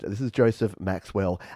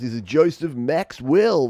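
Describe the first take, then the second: First: It is said in a natural, everyday speaking voice. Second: It is said in a put-on radio announcer voice.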